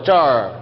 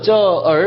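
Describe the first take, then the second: First: The er merges with the syllable into one. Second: The er is pronounced as a separate syllable. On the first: The speaker calls it right. "한 글자처럼" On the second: The speaker calls it wrong. "저얼 안 그러고"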